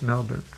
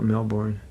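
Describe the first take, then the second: First: It is said with an Australian pronunciation. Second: It is said with an American pronunciation.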